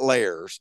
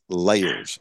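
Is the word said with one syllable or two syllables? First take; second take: one syllable; two syllables. First: The word is said as one syllable. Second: The word is said as two syllables. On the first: The speaker calls it wrong. "Not layers" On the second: The speaker calls it right. "It's a two-syllable word"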